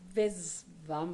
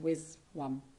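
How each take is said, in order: First: The word begins with a V sound. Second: The word begins with a W sound. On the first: This is how the speaker says the name. "I pronounce it" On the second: This is how others say the name. "they pronounce it"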